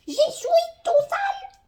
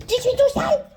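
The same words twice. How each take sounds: First: Much higher, slow, wailing fake sob; hammed-up toddler wail, drawn out; mock crying whine. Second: Put-on high, loud childish whine; high whiny toddler voice; mock whine. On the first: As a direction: pretend to cry like a toddler. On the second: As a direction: complain like a sulky toddler. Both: Voicing her own mess childishly.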